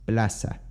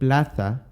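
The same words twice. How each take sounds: First: The z is pronounced as an s. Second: The z is not pronounced as an s. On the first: "becomes plaza" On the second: "The word plaza"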